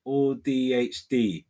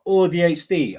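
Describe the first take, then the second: First: Or D H D slowly spelled, each letter separate; careful spelling out. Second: Said in the usual way. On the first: Shown as a demonstration. Reading the viewer's name, spelling Or D H D slowly. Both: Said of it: "So say it like".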